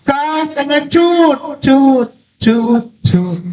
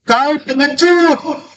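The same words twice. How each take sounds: First: High holler with the last syllable bouncing; imitated echo. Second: High, sustained long-distance holler; storytelling yell. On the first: Mountain throws the insult back at the child, imitated echo. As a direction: repeat the tail like a mountain echo. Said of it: "Sana dijawab". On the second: A narrator's reading. Child yelling at the unseen voice, acted high holler. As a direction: holler it out slowly on one high note. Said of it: "anak ini berteriak lagi".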